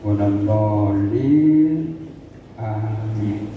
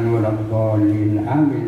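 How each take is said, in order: First: There is a short pause before amin. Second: Amin follows straight on with no pause. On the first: The speaker calls it right. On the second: The speaker calls it wrong. "tidak langsung ya, bukan"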